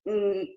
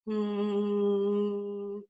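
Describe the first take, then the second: First: The hum sounds squeezed and strained. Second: The hum sounds easy and relaxed. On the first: The speaker calls it wrong. "it would sound very strained" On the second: The speaker calls it right. "an easy production where these muscles are pretty relaxed"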